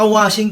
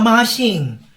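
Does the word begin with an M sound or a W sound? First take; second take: W sound; M sound. First: The word begins with a W sound. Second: The word begins with an M sound. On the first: The speaker calls it right. "Imbaga ka washing ti husto" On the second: The speaker calls it wrong. "Mashing la mashing"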